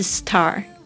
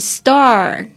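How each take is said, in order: First: The t has a strong puff of air. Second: The t is soft, close to a d. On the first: The speaker calls it wrong. "不是star" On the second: The speaker calls it right. "就像你听到这个星星是star"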